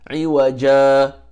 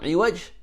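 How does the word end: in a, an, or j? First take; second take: a; j. First: The word ends on a vowel a, no n. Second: The word ends on the consonant j. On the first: The speaker calls it right. "it becomes iwaja" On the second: The speaker calls it wrong. "not iwaj"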